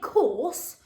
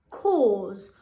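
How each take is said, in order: First: The word ends with a hissing S sound. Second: The word ends with a buzzing Z sound. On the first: The speaker calls it wrong. "Now we don't say course" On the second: The speaker calls it right. "That S changes to like a Z"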